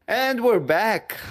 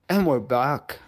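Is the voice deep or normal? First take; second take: normal; deep. First: It is said in a normal voice. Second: It is said in a deeper voice.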